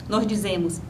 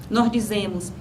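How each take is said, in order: The two takes are said the same way.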